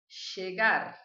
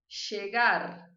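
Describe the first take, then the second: First: The ll is said with an Argentine accent. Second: The ll is said with an Argentine accent.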